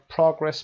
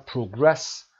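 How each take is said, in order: First: "progress" stressed on PRO; first-syllable stress. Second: "progress" stressed on GRESS; second-syllable stress. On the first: Teacher contrasting noun for students, "progress" stressed on PRO. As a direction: noun form, PRO-gress. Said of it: "باشه قسمت اول noun هست". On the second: Teacher contrasting verb for students, "progress" stressed on GRESS. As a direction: verb form, pro-GRESS. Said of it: "وربش". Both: Shown as a demonstration.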